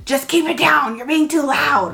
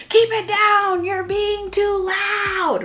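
First: Put-on a touch of irritated parent telling the kid off; mild mock scolding. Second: High, slow, exasperated parental scolding; mock scolding. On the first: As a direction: snap at the child as the bad example. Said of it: "It's instead of". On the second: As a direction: nag the kid as the wrong example, drawn out. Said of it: "instead of saying things like".

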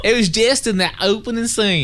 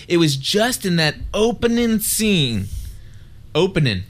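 First: Higher-pitched, hammed-up Southern twang; exaggerated Southern accent. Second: Put-on touch of Southern accent. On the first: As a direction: tease with a thick mock Southern accent. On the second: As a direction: slip a little Southern twang into "opening". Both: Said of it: "You like that?".

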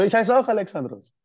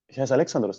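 First: Higher and louder, amazed at the shared name; surprised delight. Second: Said in the usual way. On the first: Retold or imitated. Restaurant owner amazed they share a name, surprised delight. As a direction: exclaim it like a happy coincidence. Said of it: "Der so". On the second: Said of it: "Ich so".

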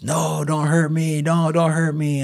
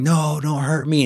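First: High, slow imitated pleading; mock scream. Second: High pitched mock plea; imitated pleading. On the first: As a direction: repeat the plea like a scared man. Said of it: "while he's screaming this". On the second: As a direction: act out a frightened plea. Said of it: "he starts saying".

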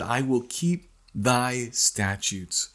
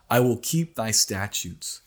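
First: Slow, weighty "I will keep thy statutes"; a deliberate vow spoken slowly; slow emphasis. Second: Said in the usual way. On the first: Shown as a demonstration. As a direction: lean on "keep" and draw the line out. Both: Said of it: "And then he said".

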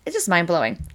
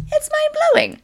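First: Said in the usual way. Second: It's mind-blowing in a tiny, very high cartoon squeak; squeaky amazed repeat. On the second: Marvelling at the herbalist's blood test, a very high squeaky voice.

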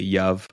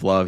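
First: "yuv" with a Y in place of the L; "yuv" for love, baby talk; toddler mispronunciation. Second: Said in the usual way. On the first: Shown as a demonstration. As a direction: say "yuv" like a small child who can't say L. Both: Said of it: "replace the L with a Y".

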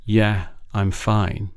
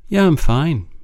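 First: "Yeah, I'm fine" drawn out slowly and quietly; a hollow, slow "Yeah, I'm fine"; slow quiet brush-off. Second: "Yeah, I'm fine" tossed off higher and louder; a bright, brushing-off "Yeah, I'm fine"; breezy mask. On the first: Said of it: "it's not the first, "Yeah, I'm fine". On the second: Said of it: "is a bit of a mask". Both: Shown as a demonstration.

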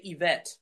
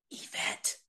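First: Said in the usual way. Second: Soft whisper of "Yvette"; calling the soldier's name in a whisper in the queue. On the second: Shown as a demonstration. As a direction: breathe "Yvette" unvoiced, very soft. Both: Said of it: "like that".

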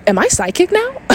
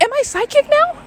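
First: High-pitched, incredulous re-enactment; mock freaked-out question. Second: Very high, squeaky incredulous question; mock freaked-out squeak. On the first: Storyteller reliving opening her eyes afterwards, high startled question. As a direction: ask it in high, alarmed disbelief. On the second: Storyteller repeating her stunned reaction, very high squeaky disbelief. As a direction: pitch it right up in hammed-up alarm. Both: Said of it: "I start freaking the fuck out".

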